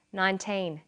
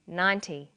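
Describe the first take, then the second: First: Put-on NINETEEN with a long teen and clear final N; minimal-pair demo. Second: NINETY with a short, falling -ty; minimal-pair demo. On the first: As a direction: say NINETEEN carefully, holding the teen. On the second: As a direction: say NINETY carefully, first syllable strong. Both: Shown as a demonstration. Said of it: "Now you try these ones".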